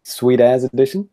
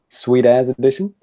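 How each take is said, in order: First: It is said in a New Zealand accent. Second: It is said in a New Zealand accent.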